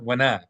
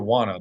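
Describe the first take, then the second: First: It is reduced to 'wena', with an 'e' vowel. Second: It is reduced to 'wanna', with an 'a' vowel. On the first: The speaker calls it wrong. "but not wena" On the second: The speaker calls it right. "It's okay if you say wanna"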